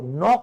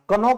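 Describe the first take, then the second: First: The word starts directly with the n sound. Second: A k sound is pronounced before the n. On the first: The speaker calls it right. "वो नॉक होता है" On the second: The speaker calls it wrong. "कनॉक नहीं होता"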